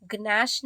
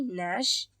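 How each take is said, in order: First: "ग्नैश" with the G pronounced before N; wrong, sounded G. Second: "नैश" starting straight on N, no G; silent G. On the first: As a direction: sound the hard G at the start of "ग्नैश". ("ग्नैश" में ग की आवाज़ के साथ) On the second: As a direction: drop the G before the N in "नैश". ("नैश" में ग silent) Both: Shown as a demonstration. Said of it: "ग्नैश नहीं, नैश".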